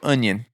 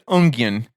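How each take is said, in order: First: The word is said without any G sound. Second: The word is said with an added G sound. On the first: The speaker calls it right. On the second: The speaker calls it wrong.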